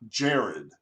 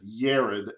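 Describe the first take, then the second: First: The name begins with a J sound. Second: The name begins with a Y sound. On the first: It follows the English pronunciation. "not Jared" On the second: It follows the Hebrew pronunciation. "the J's are pronounced like a Y"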